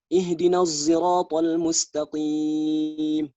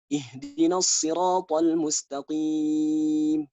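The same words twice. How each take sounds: First: Sirat begins with a z-like sound. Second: Sirat begins with an emphatic s sound.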